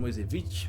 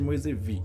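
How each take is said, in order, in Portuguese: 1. O nome termina em som de consoante. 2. O nome termina em som de vogal. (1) "outros falam Moisevich" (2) "não tem o tal da essa pronúncia no final"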